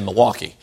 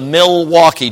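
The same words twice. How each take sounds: First: The L sound is left out of the word. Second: The L sound is pronounced in the word. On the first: It sounds like a local said it. The speaker calls it right. "there's no L when you say it the natives" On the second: It sounds like an outsider said it. The speaker calls it wrong. "don't say it that way"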